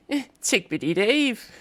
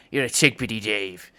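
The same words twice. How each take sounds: First: Much higher, slow sing-song lilt. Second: Mock angry. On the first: Showing how he matches the refrain, high and lilting. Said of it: "Or if I'd be like". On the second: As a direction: grumble it like a mild insult. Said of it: "angry, like". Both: Shown as a demonstration.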